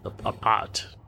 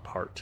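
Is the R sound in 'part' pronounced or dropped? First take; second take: dropped; pronounced. First: The word is said without an R sound. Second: The word is said with an R sound. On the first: "they don't pronounce the R like we did" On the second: "like we did"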